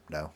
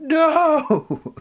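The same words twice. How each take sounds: First: Short, emotionless retold denial; cold little "No"; serial-killer cold. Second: Long, high wail of protest; hammed-up anguished "No!"; freaked-out scream. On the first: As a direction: coolly deny it like a killer. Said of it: "like a serial killer". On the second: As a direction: scream it like an outraged child. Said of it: "And I start freaking out".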